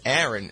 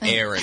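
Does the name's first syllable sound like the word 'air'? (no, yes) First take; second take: no; yes. First: The name is not said like 'Airin'. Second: The name is said like 'Airin', starting with 'air'. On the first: This is the name's intended pronunciation. The speaker calls it right. "no, it's Aaron" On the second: This is how others mispronounced the name. The speaker calls it wrong. "It was like A-I-R-I-N, Aaron"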